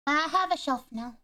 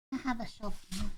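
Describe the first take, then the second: First: Higher, louder triumphant claim; bright proud declaration; proud announcement. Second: Said in the usual way. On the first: Shown as a demonstration. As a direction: announce it with pride.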